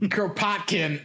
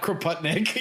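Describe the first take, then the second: First: The name ends with the sounds 'kin'. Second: The name ends with the sounds 'nik'. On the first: The speaker calls it right. "Kropotkin. Yeah" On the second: The speaker calls it wrong. "not Kropotnik"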